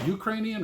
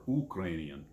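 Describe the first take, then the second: First: "Ukrainian" starting with a "you" sound; "Ukrainian" with a y-glide at the start; first pronunciation of Ukrainian. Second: "Ukrainian" starting with a pure "oo" sound; "Ukrainian" with no y-glide at the start; alternative pronunciation of Ukrainian. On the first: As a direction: say "Ukrainian" as you-KRAY-nee-an. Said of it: "I've heard people say it both ways". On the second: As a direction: say "Ukrainian" as oo-KRAY-nee-an. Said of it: "when they pronounce it different". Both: Shown as a demonstration.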